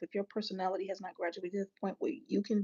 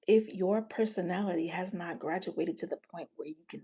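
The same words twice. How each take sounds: First: The phrase is spoken quickly. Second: The phrase is spoken slowly and calmly. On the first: "I said that fast" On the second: "I say it still"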